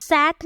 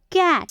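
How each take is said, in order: First: सैट starting with an "s" sound; rejected soft C. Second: कैट starting with a crisp "k" sound; hard C. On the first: Teacher showing what she isn't saying, soft "s" start. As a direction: say सैट with C misread as "s". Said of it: "सैट नहीं बोल रही हूँ". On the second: Teacher showing learners the C sound, hard "k". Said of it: "इसे कैट बोल रही हूँ". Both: Shown as a demonstration.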